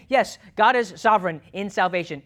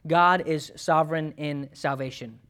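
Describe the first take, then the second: First: Preacher leaning hard on every word; emphatic. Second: Said in the usual way. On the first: Shown as a demonstration. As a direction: drive the whole line home with weight. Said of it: "we can't emphasize enough". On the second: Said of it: "we'll say it like this".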